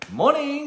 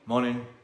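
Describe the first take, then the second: First: It is said brightly with lively pitch. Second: It is said flatly on one pitch. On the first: The speaker is showing up as their best self. The speaker calls it right. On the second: The speaker is grudging and unengaged. The speaker calls it wrong.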